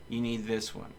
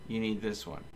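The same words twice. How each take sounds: The two takes are said the same way.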